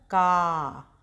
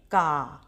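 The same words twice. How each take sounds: First: का said with its vowel drawn out long, kaaa; long kaa. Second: का said short and crisp, with a quick short a. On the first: Teacher shows the long aa sound to children, drawn out. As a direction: stretch the a of का longer. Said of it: "थोड़ा खींच के, ज़्यादा देर तक". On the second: Teacher shows the short का for her pupils, said short. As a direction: clip का off short, a brief ka. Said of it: "इसको बोलेंगे". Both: Shown as a demonstration.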